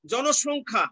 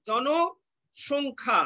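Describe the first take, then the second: First: জনসংখ্যা in one piece with "sh" in the middle. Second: Very slow জনসংখ্যা, split jono, pause, shongkha; drawn-out halves of জনসংখ্যা. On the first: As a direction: say জনসংখ্যা as jono-shongkha, unbroken. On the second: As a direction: break জনসংখ্যা in two before the "sh". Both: Shown as a demonstration. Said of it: "দন্ত স এর উচ্চারণ তালব্য স হয়ে যাচ্ছে".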